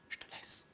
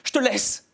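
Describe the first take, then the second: First: It is said in a whisper. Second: It is said in a normal voice.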